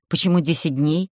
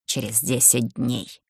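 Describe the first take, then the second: First: Said in the usual way. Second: Low, soft otherworldly voice, десять slow; rustling voice from beyond saying десять; eldritch horror. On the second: Acted. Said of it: "шелестящим потусторонним голосом".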